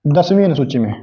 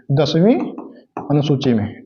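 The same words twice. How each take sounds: First: Said in the usual way. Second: दसवीं said alone with a rising tune, a pause, then अनुसूची में dropped low and softer; spaced repetition. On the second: Shown as a demonstration. Teacher drilling दसवीं अनुसूची में to students, word by word. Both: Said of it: "क्या हुआ था?".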